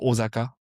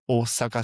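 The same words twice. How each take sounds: First: The middle consonant is a voiced Z sound. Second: The middle consonant is a voiceless S sound. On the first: The speaker calls it wrong. "les Français disent souvent Osaka" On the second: The speaker calls it right. "ça se prononce Osaka, c'est deux S"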